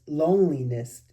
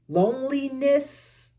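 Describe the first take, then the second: First: Said in the usual way. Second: Loneliness sung out high and slow, stretched; drawn-out high loneliness. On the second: Shown as a demonstration. Reader savoring the word Loneliness, high and slow. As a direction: lift Loneliness way up and draw it out. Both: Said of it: "repeats word in new manner".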